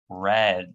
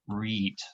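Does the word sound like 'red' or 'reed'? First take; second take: red; reed. First: It is said with the vowel of 'red'. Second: It is said with the vowel of 'reed'. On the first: The action happened in the past. "But in the past, we say red, like the color" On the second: The action happens in the present. "So in the present, we say read"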